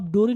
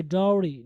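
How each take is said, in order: First: डोरी with a plain o; mispronunciation demo. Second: डाउरी with an ow vowel; correct pronunciation. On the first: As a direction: say डोरी wrongly, like DOH-ree. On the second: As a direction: model डाउरी as DOW-ree. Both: Shown as a demonstration. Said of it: "इसको आप डोरी नहीं पढ़ेंगे".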